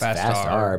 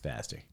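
First: It is said as two separate parts. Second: It is said as one single word. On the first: "It's Fast R" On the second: "If you put it together, it's faster"

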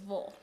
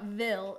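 First: The ending is said with a reduced 'vul' vowel. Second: The ending is said with a full 'vill' vowel. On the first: The speaker calls it right. "it's Vol" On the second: The speaker calls it wrong. "it's not Ville"

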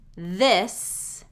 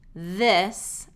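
First: The word begins with a voiced TH sound. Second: The word begins with a voiced TH sound.

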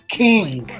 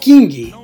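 First: The word ends cleanly on the final consonant. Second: The word ends with an added ee vowel. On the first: "it's not King" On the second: "That's how Brazilians pronounce this soul consonants in English"

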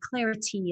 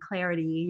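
First: The middle T is a sharp, crisp T. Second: The middle T is a soft tapped T. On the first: The speaker calls it right. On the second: The speaker calls it wrong. "the tapped T that I like to do from America"

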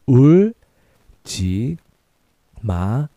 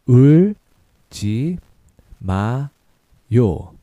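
No difference in how they are said.

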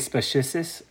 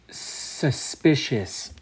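First: The p sound is moved early in the word. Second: The p sound is in its usual place. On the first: The speaker calls it wrong. "I usually put the P first" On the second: The speaker calls it right. "I'm going to try and say it correctly for this first time"

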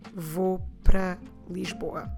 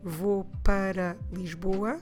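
First: It is quicker, with 'para' shortened to 'pra'. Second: It is slow, with 'para' fully pronounced. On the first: "or I can say in a more natural way" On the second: "I can say slowly"

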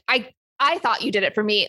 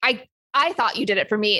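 First: It is said in a genuinely angry tone. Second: It is said in a genuinely angry tone.

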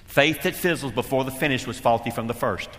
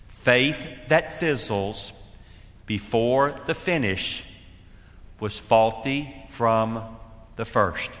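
First: The sentence is spoken at a normal, quicker pace. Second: The sentence is spoken at a slower pace.

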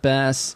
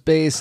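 First: The vowel sounds like the one in 'mass'. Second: The vowel sounds like the one in 'base'. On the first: It refers to the fish. "not the fish" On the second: It refers to the musical instrument. "I assume the instrument"

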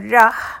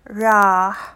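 First: The vowel is short. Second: The vowel is long. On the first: The word means 'will'. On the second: The word means 'he left'.

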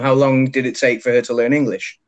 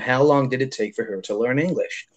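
First: It is said in a British accent. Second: It is said in an American accent. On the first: "That's in English though" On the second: "But if that was an American"

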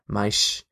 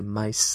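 First: The final consonant is an sh sound. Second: The final consonant is an s sound. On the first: This is how it is said in Portugal. "the S in Portuguese from Portugal is a sh sound" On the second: This is how it is said in most of Brazil. "whereas in most of Brazil, it's a s sound"

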